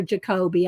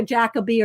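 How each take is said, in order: First: Jacoby with stress on the middle syllable; second pronunciation option. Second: Jacobi with stress on the first syllable; first pronunciation option. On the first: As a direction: say Jacoby as juh-KOH-bee. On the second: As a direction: say Jacobi as JACK-uh-bee. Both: Shown as a demonstration. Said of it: "not sure how you say his name".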